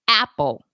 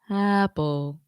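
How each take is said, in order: First: The vowel starts with a hard, exaggerated throat catch. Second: The vowel starts smoothly with no catch or breath. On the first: "overdo it ... That's too much" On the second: "That would be a, a balanced onset, and that's typically not how we talk"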